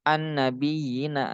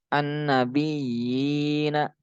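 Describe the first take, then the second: First: The vowel is kept short. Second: The vowel is held long. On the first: The speaker calls it wrong. "jangan an nabiyina, enggak begitu" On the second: The speaker calls it right. "tapi dibaca panjang tuh"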